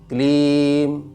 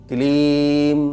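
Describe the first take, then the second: First: The final m is sounded fully and strongly. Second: The same.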